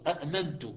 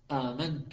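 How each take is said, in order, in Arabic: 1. تبدأ بهمزتين منفصلتين. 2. تبدأ بهمزة واحدة ثم حرف مدّ.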